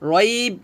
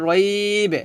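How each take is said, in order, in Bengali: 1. শেষের b সমতল ভাবে শেষ হয়, কোনো প্রতিধ্বনিযুক্ত ঝাঁকুনি ছাড়া। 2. শেষের b প্রতিধ্বনিযুক্ত ঝাঁকুনি দিয়ে শেষ হয়। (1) "রাইব হবে না" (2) "কলকলা করতে হবে, হবে রাইব"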